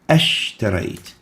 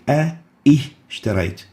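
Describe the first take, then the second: First: The parts merge without a glottal stop. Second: A glottal stop separates the two parts. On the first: The speaker calls it right. "Deleting the connecting hamza" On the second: The speaker calls it wrong. "we don't say"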